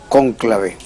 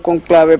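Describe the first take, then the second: First: The stress is on the first syllable. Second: The stress is on the second syllable. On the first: This is the form used today. "para sustituirlo por cónclave. Ese es el término de hoy" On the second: This is the original learned form of the word. "el uso fue desplazando a conclave"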